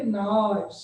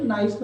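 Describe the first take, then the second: First: "नाइस" with its eye vowel stretched out; long vowel demo. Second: Said in the usual way. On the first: Shown as a demonstration. Teacher showing students the long sound, "नाइस" with a stretched vowel. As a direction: hold the vowel in "नाइस" long before the final s. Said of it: "उसको long भी करना है". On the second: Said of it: "नाइस में हमने नाइस".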